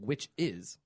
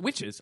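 First: It is split into two separate words. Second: It is run together as one word. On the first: The speaker calls it right. "I'm saying witch is" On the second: The speaker calls it wrong. "Not witches"

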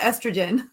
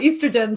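First: It is said with an American pronunciation. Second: It is said with a British pronunciation.

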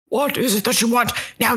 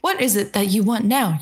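First: It is said in an angry tone. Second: It is said in a calm tone.

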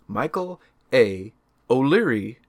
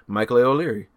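First: The name is said slowly with clear emphasis. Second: The name is run together quickly. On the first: The speaker calls it right. "you're hearing the emphasis" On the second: The speaker calls it wrong. "whenever you say it all together"

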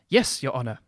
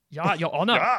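First: It is said in the speaker's plain accent. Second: It is said in a loud German accent.

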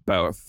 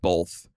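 First: The word is said without an L sound. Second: The word is said with an L sound. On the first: The speaker calls it right. "it's B-O-T-H, both" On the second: The speaker calls it wrong. "saying B-O-L-T-H, both"

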